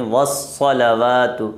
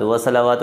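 First: Slow, careful "والصلوات" as it should be said; correct version. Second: "والصلوات" shown as the mistake people make; wrong version. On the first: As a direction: model the right "والصلوات". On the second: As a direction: say "والصلوات" as the faulty reading. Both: Shown as a demonstration. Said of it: "نہیں".

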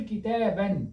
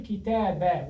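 First: كتابًا said as "kitaaban", final n sounded; with tanween. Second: كتابة said as "kitaaba", no final n; without tanween. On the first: Teacher showing the form to avoid, كتابًا with tanween. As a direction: end كتابًا firmly on "-an". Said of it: "بالتنوين". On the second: Teacher showing the construct form, كتابة without tanween. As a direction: end كتابة on an open short "a", nunation dropped. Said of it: "لذلك نقول كتابة ولا نقول كتابًا". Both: Shown as a demonstration.

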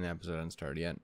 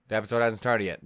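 First: Soft, low pleading, as to a restless pet; soft plea. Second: Louder, firm, scolding like an owner. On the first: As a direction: coax him gently, almost under your breath. First soft plea to Ren. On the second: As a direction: raise the voice and lay down the rule. Louder second plea to Ren. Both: Pretend.

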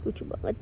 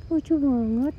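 First: Soft whisper of delight; whispered cooing. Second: Excited gush. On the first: Owner whispers over the cute kitten, whispered cooing. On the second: Owner gushes over the cute kitten, higher excited coo. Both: Real, not acted.

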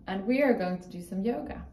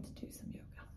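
First: Said in the usual way. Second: Soft unvoiced whisper. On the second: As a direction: whisper it gently. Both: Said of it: "repeated as whisper".

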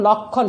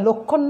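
First: লক্ষণ with open ɔ, "lawk-khon"; open vowel in লক্ষণ. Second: লক্ষণ with rounded o, "lok-khon"; wrong closed o. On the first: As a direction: say লক্ষণ with first vowel wide. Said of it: "সেই লক্ষণের উচ্চারণ দেখো". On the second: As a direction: say লক্ষণ with first vowel closed to o. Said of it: "সেটা লক্ষণ নয়". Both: Shown as a demonstration.

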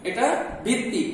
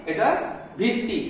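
The two takes are said the same way.

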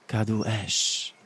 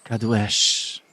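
First: Slow, drawn-out fire spell; slower repeat of the fire spell. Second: Loud spell. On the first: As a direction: draw out Kadu Esz slowly. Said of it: "ponownie wypowiedziała zaklęcie ognia". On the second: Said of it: "powiedziała donośnym głosem". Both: Acted.

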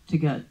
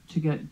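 Both takes have the same delivery.

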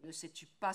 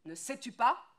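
First: Said in the usual way. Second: Higher, louder repeat, snapping; angry shout. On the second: Acted. Woodcutter shouting at his wife over the baby. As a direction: hammer the question at her.

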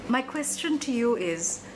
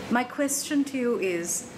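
No difference in how they are said.

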